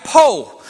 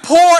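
First: "po" with no R, open long O; dropped R. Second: "poor" with its O R sounded; R pronounced. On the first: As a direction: say "po", dropping the R entirely. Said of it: "But when you po". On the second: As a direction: say "poor" with the final R. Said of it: "pronounce the O R in poor". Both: Shown as a demonstration.

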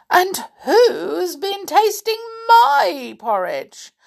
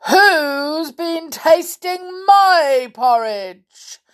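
First: High, loud, slow indignant bear; Mother Bear voice. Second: Slow, loud, booming complaint; cross growling bear. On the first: Mother Bear finding her porridge tasted, indignant. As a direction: raise the voice high in protest. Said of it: "said Mother Bear". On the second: Father Bear finding his porridge tasted, cross growl. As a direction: growl each long word crossly. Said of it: "he growled crossly". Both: A narrator's reading.

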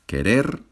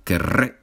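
First: Said in the usual way. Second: Querré with a strong trilled rr, ke-RRE; rolled double R. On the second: Shown as a demonstration. Teacher repeating querré for students, rr rolled. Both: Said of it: "la R vibrante es un poquito difícil".

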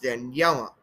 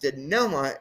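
First: "Daniela" with a y-glide, dan-YELL-uh; "Daniela" in two clear parts, Dan plus yella; correct pronunciation. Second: "Daniela" without the y-glide, second syllable a plain "NEL"; "Daniela" mispronounced as duh-NELL-uh; wrong pronunciation. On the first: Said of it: "it's pronounced Daniela". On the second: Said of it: "Her name is not pronounced". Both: Shown as a demonstration.

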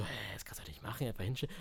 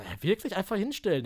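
First: Hushed, whispered disbelief; quick, unvoiced aside to oneself; whispered thought. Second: Voiced, puzzled double-check; acting out a baffled question to the instructor; incredulous question. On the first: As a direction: whisper it as a baffled private thought. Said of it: "Und dann dachte ich so". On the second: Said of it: "Hab ich zu ihm gesagt".

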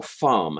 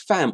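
First: "farm" with a long broad ah; "farm" as the posh version of fam; long-vowel FARM. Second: "fam" with a short open a; "fam" with the vowel of cat. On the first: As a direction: say "farm" with a drawn-out ah. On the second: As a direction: say "fam" to rhyme with ham. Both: Shown as a demonstration. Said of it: "is it pronounced fam or farm".

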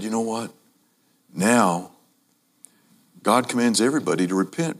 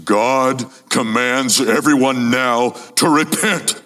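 First: Softer, kindly offer; quiet, tender appeal; gentle invitation. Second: Slow, stern warning; a hint of menace, drawn out; threatening. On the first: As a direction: say it softly, like good news. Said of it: "he also said". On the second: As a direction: say it like a threat, slowly. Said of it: "like it's a threat". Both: Shown as a demonstration.

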